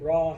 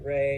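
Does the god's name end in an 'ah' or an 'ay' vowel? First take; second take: ah; ay. First: The name ends in an open 'ah' vowel. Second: The name ends in an 'ay' vowel. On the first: "Some people pronounce it Ra" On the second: "some people pronounce it Re"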